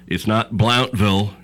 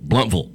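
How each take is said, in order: First: The first syllable rhymes with 'count'. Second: The first syllable sounds like 'blunt'. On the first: The speaker calls it wrong. "it's not Blountville" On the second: The speaker calls it right. "it's Blunt, and it's Vull"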